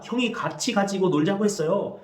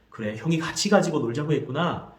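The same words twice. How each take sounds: First: A hint of a younger brother's voice, higher; younger brother's complaint. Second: Put-on calm echo of the child's words; mother showing she understood; mother's empathetic echo. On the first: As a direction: report what the older brother said, childlike. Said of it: "동생이 말합니다". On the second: Shown as a demonstration. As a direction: repeat it back gently. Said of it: "그래, ... 했구나".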